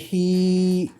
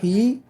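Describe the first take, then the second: First: The vowel is held for two counts. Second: The vowel is short. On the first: The speaker calls it right. "c'est hi pour faire deux" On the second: The speaker calls it wrong. "C'est pas hi"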